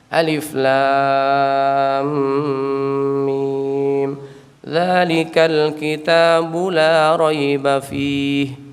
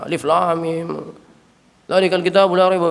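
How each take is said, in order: First: It is recited slowly and in a relaxed way. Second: It is recited quickly, without lingering. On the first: "pelan. Bacanya Nabi pelan, santai" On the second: "enggak begitu"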